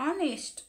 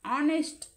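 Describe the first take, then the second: First: The word starts directly with a vowel sound. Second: The word starts directly with a vowel sound.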